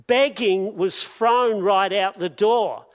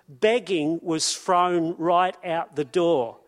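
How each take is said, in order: First: Preacher driving the point home; louder repeat. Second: Said in the usual way. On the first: Shown as a demonstration. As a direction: hit "thrown" hard in the repeat.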